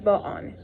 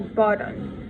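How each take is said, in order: First: The double T is not sounded like a D. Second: The double T is sounded like a D. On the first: "They would avoid the double T in British and say say it like button" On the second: "pretty or button"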